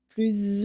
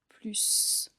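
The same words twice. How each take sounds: First: The final s is sounded as a z. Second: The final s is sounded as an s. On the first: A word starting with a vowel follows. "on entend plus intelligent. On fait la liaison" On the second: It names an advantage, a positive addition. "C'est pourquoi on dit plus"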